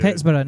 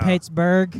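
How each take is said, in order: First: The ending sounds like the end of Edinburgh. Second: The ending sounds like the usual American ending.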